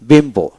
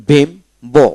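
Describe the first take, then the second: First: Said in the usual way. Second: বিম্বো in two separate beats; split syllables. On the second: Shown as a demonstration. Teacher drills the syllables, saying বিম্বো in two parts. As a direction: pause briefly after the first syllable of বিম্বো. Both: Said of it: "এখানে তিনটা syllable হলো".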